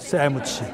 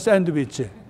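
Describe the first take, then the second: First: The word is clipped, sounding like se-mu-chi. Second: Each syllable is sounded out, san-deu-wi-chi. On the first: "세무치라고 그래요" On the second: "샌드위치를 하지 않고"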